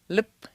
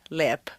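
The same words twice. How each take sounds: First: The vowel is short and nearly dropped. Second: The vowel is long and fully pronounced. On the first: The speaker calls it right. "try to leave out the lax vowel" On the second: The speaker calls it wrong. "overpronouncing it"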